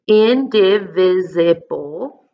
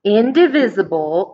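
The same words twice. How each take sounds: First: Slow sounding out. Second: Said in the usual way. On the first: Shown as a demonstration. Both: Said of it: "that's kind of a hard word".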